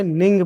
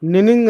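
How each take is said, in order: First: "निंग" as a single syllable with a nasal "ng"; correct reading. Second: "निनिंग" with the doubled "नि", said fast and higher as the mistake; mock the wrong "निनिंग", doubling the first syllable; wrong reading. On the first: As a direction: say the right "निंग" once, cleanly. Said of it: "निंग पढ़ेंगे". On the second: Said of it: "निनिंग नहीं पढ़ेंगे". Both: Shown as a demonstration.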